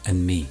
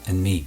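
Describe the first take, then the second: No difference in how they are said.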